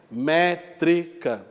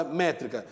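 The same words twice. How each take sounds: First: "Métrica" syllable by syllable, MÉ-TRI-CA, very slow; dividido em sílabas. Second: Said in the usual way. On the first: Shown as a demonstration. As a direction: spell out "Métrica" in three separate, drawn-out syllables. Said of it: "porque há sílabas métricas". ("Métrica" dito devagar, sílaba a sílaba: mé-tri-ca)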